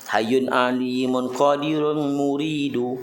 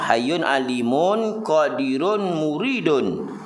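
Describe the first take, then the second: First: The last word ends without an n sound. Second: The last word ends with an n sound. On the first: It is read as metered poetry. The speaker calls it right. "Kalau baca tak ikut arut, tak boleh nak baca" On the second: It is not read as poetry. The speaker calls it wrong. "ha tu bukan baca syair"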